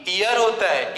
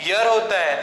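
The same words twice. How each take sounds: First: ईयर with a leading "ee" vowel, ee-yar; wrong "ear" pronunciation. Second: ईयर said as "yar", opening on a y-glide; correct "year" pronunciation. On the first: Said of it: "ना कि". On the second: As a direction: say ईयर with no leading "ee" vowel. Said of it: "इसका correct pronunciation होता है". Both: Shown as a demonstration.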